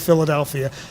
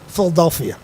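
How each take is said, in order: First: The word is said in a standard accent. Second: The word is said in a local Philadelphia accent. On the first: "Only people from Philadelphia can't say Philadelphia" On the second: "Philadelphians say Philadelphia"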